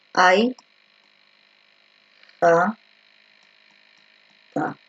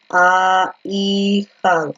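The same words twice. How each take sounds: First: Ai, ja, ta said as separate beats with long pauses, Ai kept together as one syllable; teacher modeling the right syllable break of ahijada, slow and deliberate; correct syllable split. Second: A, I, ja said as quick separate beats, pulling A and I apart; teacher showing the wrong way to split ahijada, quick and matter-of-fact; wrong syllable split. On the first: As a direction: spell out Ai... ja... ta slowly, the way a teacher shows the right split. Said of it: "cómo sería la forma correcta para separar ahijada".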